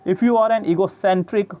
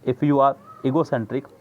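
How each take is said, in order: First: Egocentric with CEN hit higher and louder; stress on CEN. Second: Said in the usual way. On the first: Shown as a demonstration. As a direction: punch the CEN of egocentric, slowly. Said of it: "S E N इस word पे ज़्यादा जोर". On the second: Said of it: "capital करके लिख रहा है".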